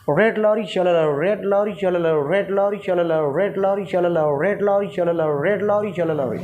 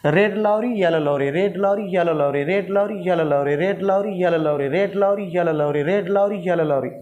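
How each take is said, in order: First: Red lorry with a curled r, slower; rolled tongue. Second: Red lorry in a native Indian accent; tongue twister with an Indian r; Indian touch. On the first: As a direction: roll the tongue on रेड लॉरी. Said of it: "थोड़ा सा टंग को रोल करके practice करें". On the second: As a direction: practise it in your own Indian way. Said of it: "अपने जो native टंग है, यहाँ के जो इंडियन टच है". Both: Shown as a demonstration.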